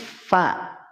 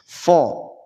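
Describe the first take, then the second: First: The vowel sounds bright, like a. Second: The vowel sounds dark, like o. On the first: The speaker calls it right. "Tapi fa" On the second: The speaker calls it wrong. "tidak seperti ini, tidak fo"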